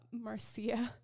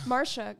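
First: Marcia said as MAR-see-a; wrong pronunciation. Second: Marsha said as MAR-sha, louder; correct pronunciation. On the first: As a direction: reads Marcia as MAR-see-a, not Marsha. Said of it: "So I see it spelled as, like, Marcia, but it's Marsha". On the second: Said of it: "but it's Marsha". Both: Shown as a demonstration.

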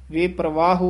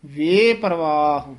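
First: ਵੇ ਪਰਵਾਹ quick, with full oo on the end; mistaken ending. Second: ਵੇ stretched long before ਪਰਵਾਹ, light final u; drawn out. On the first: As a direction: overdo the final u of ਪਰਵਾਹ. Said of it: "ਹੂੜਾ ਨਹੀਂ". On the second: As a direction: linger on ਵੇ, keep ਪਰਵਾਹ whole. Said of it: "ਲਮਕਾ ਕੇ ਉਚਾਰਨ ਕਰਨਾ". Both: Shown as a demonstration.

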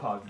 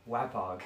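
First: "Wapog" with a broad AH first vowel; first vowel of "Wapog" as in "father"; corrected pronunciation. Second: "Wapog" with a flat A as in "wax"; first vowel of "Wapog" as in "cat"; mispronounced name. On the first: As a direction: say "Wapog" starting "wah". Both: Real, not acted. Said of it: "It's pronounced Wapog".

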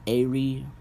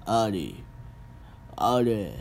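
First: Said in the usual way. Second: Mock tone-deaf delivery. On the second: Shown as a demonstration. Vlogger mocking Korean drama dialogue, mild imitation. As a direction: lightly mimic the drama actors' flat "Ari". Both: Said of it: "they talk like they're so tone deaf".

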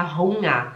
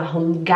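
First: Hunger with throat ng, no G; soft NG. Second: Hunger with a clear "ga" ending; hard G. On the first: Teacher shows what is said, Hunger with soft NG. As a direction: glide from ng to A in Hunger. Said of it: "a gente fala". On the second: Teacher shows what isn't said, Hunger with hard G. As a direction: pop the G in Hunger. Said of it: "A gente não fala". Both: Shown as a demonstration.

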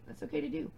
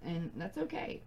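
First: Lifted high on okay, gentle; higher reassurance. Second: Said in the usual way. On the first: Shown as a demonstration. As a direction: reassure the viewer, voice rising. Reassuring repeat of same words.

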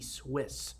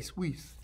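First: "Swiss" with a short i and final s; English pronunciation. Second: "Swiss" said as "sweez"; long ee and buzzing z in "Swiss"; own pronunciation. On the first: Host guessing at a bank's name, English pronunciation of "Swiss". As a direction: say "Swiss" like the English word, softly. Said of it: "I guess you say". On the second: Host offering his own reading of a bank name, "Swiss" pronounced "sweez". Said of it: "I would say". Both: Shown as a demonstration.

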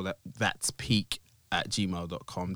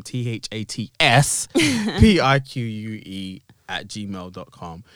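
First: Said in the usual way. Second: T H A T S P I Q U E spelled slowly letter by letter. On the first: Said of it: "spelling follows". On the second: Shown as a demonstration. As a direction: say T H A T S P I Q U E one letter at a time. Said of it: "spelled version".

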